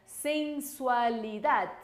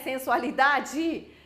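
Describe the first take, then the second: First: The word ends on the d sound. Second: A vowel sound follows the final d. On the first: The speaker calls it right. "Atención con esa D, con ese D aquí no final da palabra" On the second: The speaker calls it wrong. "não, é o D, ó, morde a língua aí para não falar vogal depois do D"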